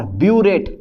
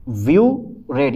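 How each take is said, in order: First: ब्यूरेट said smoothly as one word; biuret as one word. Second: व्यू रेट said as two separate parts with a pause; split into two. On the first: Teacher to class, ब्यूरेट said smoothly as one word. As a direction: say ब्यूरेट in a single run. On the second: Teacher to class, व्यू रेट split into two parts. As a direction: break it into व्यू, then रेट. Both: Shown as a demonstration. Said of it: "या व्यू रेट बोल दो आप".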